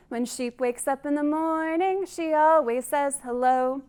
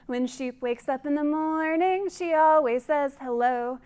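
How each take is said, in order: Both takes have the same delivery.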